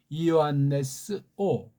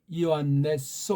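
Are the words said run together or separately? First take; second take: separately; run together. First: The two words are said as separate words. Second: The two words are joined into one word.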